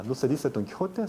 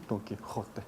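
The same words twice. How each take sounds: First: Said in the usual way. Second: Quiet "Don Quijote" with a harder uvular j; stronger Castilian j. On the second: Shown as a demonstration. ("Quijote" con jota más fuerte) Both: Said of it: "pronunciara con más fuerza".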